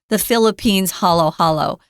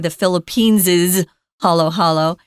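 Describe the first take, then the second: First: Philippines has no extra syllable for the possessive. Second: Philippines gets an extra -es syllable for the possessive. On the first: "the more simplified" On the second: "it's not wrong to say ... Just takes longer"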